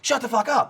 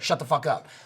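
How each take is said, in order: First: It is said forcefully, like breaking up a fight. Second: It is said in a casual, joking way.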